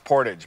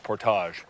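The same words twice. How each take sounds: First: The word is said with an American pronunciation. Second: The word is said with a French pronunciation. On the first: "If you're an American, it's portage" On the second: "but the actual French word is portage"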